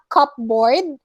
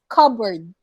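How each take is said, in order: First: The P sound is pronounced in the middle. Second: The P sound is left out entirely. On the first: The speaker calls it wrong. "it's not cupboard" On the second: The speaker calls it right. "you don't pronounce the letter P"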